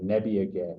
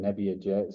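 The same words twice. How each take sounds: First: The g is pronounced as a hard g. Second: The g is pronounced like a j. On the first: The speaker calls it right. "the G is never gonna have that J sound" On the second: The speaker calls it wrong. "You said Nebbiaget"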